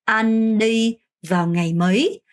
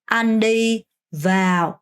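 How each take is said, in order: First: Very slow, rising "mấy"; teacher's slow question; slow model sentence. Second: A deliberately broken-off "Anh đi vào"; teacher's cut-off wrong version; mock wrong take. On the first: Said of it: "그럼 어떻게 해야 될까요?". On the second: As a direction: show the wrong stop after "vào". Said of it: "vào 아니고". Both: Shown as a demonstration.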